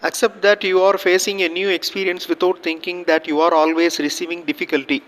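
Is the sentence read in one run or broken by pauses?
one run. The sentence is read in one run, no pauses. Listeners cannot understand it. The speaker calls it wrong. "இந்த மாதிரி read பண்ணுறோம் அப்படின்னா எதுவுமே புரியாது"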